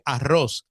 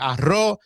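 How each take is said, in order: First: It is said with a neutral, clearly articulated accent. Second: It is said with a Puerto Rican accent. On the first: This is the way a wider audience understands. The speaker calls it right. "tenía que decir arroz" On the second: This is the local way the audience might not follow. The speaker calls it wrong. "ya no podía eh, decir"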